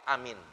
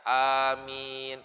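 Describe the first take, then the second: First: Both the first and second vowels are short. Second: Both the first and second vowels are long. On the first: "pendek semua" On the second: "A-nya panjang, mimnya panjang"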